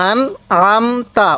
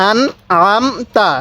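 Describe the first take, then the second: No difference in how they are said.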